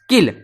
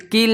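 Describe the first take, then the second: First: The vowel is short, like 'kill'. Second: The vowel is long, like 'keel'. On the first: The speaker calls it right. "इसे पढ़ते किल" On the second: The speaker calls it wrong. "इसे कील नहीं पढ़ते"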